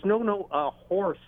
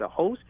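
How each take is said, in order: First: "a horse" said high, with the r sounded clearly; correcting. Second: "A hose?" asked high and puzzled, with no r sound; confused repeat. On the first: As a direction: stress "horse" high, patiently correcting the mishearing. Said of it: "He goes". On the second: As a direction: echo "hose" back as a high, puzzled question. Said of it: "I said". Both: Retold or imitated.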